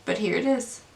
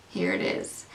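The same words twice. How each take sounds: First: Said in the usual way. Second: Much lower and softer, dry and deflated; a low, dry, resigned repeat aimed at the box; deadpan aside. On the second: Real, not acted. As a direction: mutter it flat under your breath.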